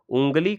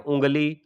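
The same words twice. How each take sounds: First: A clear n sound comes before the g. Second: The first vowel is nasalized with no n sound. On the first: The speaker calls it wrong. "उँगली करके नहीं बोला जाता है।" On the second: The speaker calls it right. "क्या होता है?"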